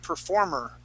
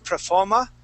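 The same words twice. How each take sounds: First: The last syllable ends in an er sound. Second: The last syllable ends in an uh sound. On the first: "I would say performer. Okay, in the United States, we use more of an er sound" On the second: "using more of an uh sound here"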